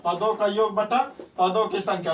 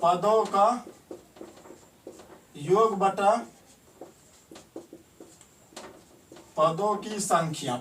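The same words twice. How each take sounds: First: Said in the usual way. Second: Slow, word by word with long pauses, for writing down; slow dictation. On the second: Shown as a demonstration. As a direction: dictate it slowly so students can copy. (धीरे-धीरे लिखवाते हुए) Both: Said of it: "इसको लिखेंगे direct".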